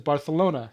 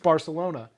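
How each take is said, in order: First: The c is said with a th sound. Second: The c is said with an s sound. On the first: "the king having a lisp, he says Barcelona" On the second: "It's Barcelona"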